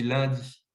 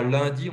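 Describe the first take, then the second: First: "lundi" with the nasal unrounded, like "lin-di"; "lundi" said the speaker's own way, as "lindi"; local pronunciation. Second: "lundi" with the rounded southern "un" vowel; "lundi" as people elsewhere say it; rejected regional pronunciation. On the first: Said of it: "on dit lundi". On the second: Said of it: "on ne dit pas lundi". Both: Shown as a demonstration.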